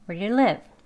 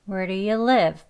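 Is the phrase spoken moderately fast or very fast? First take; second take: very fast; moderately fast. First: The phrase is spoken very quickly, sounds merged. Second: The phrase is spoken at a moderate pace. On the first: "굉장히 또 이제 빨리 발음을 하게 되면" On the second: "같이 해볼게요"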